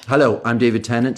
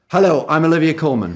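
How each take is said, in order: First: Lower, sober promo greeting; more serious. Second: Upbeat channel ident greeting; light promo read. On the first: Shown as a demonstration. Actor giving BBC America a second take, more serious. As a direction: introduce yourself gravely, pitched down. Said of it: "give them a more serious one". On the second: Acted. Actor greeting BBC America viewers, light promo read. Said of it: "Comedy, drama".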